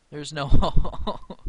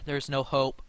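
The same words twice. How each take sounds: First: Slow, louder, laughing through no; drawn-out laugh of defeat at the board; laughing despair. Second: Said in the usual way. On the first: Real, not acted. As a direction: laughs mid-line, half crying. Losing to the computer.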